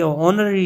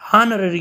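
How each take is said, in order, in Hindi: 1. शब्द की शुरुआत एक स्वर से होती है, h साइलेंट है। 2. शब्द की शुरुआत में h की आवाज़ बोली जाती है। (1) "ये ऑनररी होती है। यानी इसमें एच जो है ये साइलेंट होता है" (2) "हानररी हम पुकारते हैं, हानररी नहीं होती"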